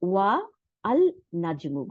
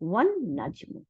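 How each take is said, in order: First: Wa is separate and the l is pronounced. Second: The l is silent and the n is doubled. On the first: The speaker calls it wrong. "And not না কিভাবে না ওয়া এই যে ওয়া আলাদা করে তারপরে আল নাজমু" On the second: The speaker calls it right. "Is pronounced as ওয়ান নাজমু"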